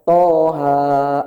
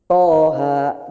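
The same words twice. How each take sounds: First: The vowels are stretched out much too long. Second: Each vowel is held for a short, even length. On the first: The speaker calls it wrong. "Jangan toha, enggak. Kebanyakan" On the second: The speaker calls it right. "toha gitu aja"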